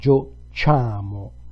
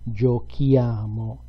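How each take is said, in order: First: The consonant before 'iamo' is a soft 'ch' sound. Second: The consonant before 'iamo' is a hard 'k' sound. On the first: The speaker calls it wrong. "If we left it like this, we pronounce it giociamo" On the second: The speaker calls it right. "We need an H to pronounce that syllable K"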